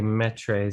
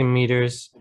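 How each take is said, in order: First: "metres" said slowly as MET-rays, following the British spelling; spelling-style metres. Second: "meters" said MEE-terz, the American way. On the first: Teacher contrasting UK spelling, "metres" mispronounced on purpose as MET-rays. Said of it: "They say metres". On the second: Teacher showing the US and UK difference, "meters" as American MEE-terz. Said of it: "I say meters". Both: Shown as a demonstration.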